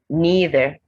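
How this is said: It is said in an American accent.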